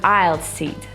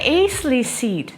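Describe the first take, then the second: First: The first word is said without an s sound. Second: The first word is said with an s sound. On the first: The speaker calls it right. "So you should say" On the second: The speaker calls it wrong. "it's not acely or icy"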